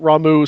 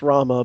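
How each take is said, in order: First: The name ends with an 'oo' sound. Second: The name ends with an 'ah' sound. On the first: This is a habitual reading from the spelling. "I've been calling it Ramu since I was like eight years old" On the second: This is how the name is officially pronounced. "as his name is pronounced as Rama"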